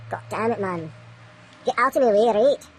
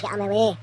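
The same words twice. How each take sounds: First: Frustrated outburst. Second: Said in the usual way. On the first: Real, not acted. Vlogger snapping at the obstacle during measurements, frustrated. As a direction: bark it at the thing in the way. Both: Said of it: "Little frustrated".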